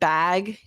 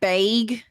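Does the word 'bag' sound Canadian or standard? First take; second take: standard; Canadian. First: The word is said with a standard vowel. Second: The word is said with a Canadian vowel. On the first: "instead of" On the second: "if you're going real Canadian, it's more like"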